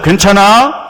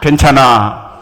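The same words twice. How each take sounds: First: The pitch rises at the end. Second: The pitch falls at the end.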